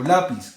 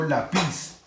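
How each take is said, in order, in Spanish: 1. El acento está en la primera sílaba. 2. El acento está en la última sílaba. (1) "quiere decir que la sílaba tónica es la penúltima" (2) "Yo digo lápiz o lápiz"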